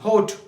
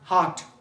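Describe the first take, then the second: First: The vowel sounds like a long 'oh'. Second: The vowel sounds like an open 'ah'. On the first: The speaker calls it wrong. "लेकिन ये होट नहीं" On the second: The speaker calls it right. "ये हार्ट है"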